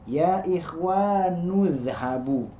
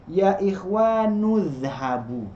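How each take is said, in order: Both takes have the same delivery.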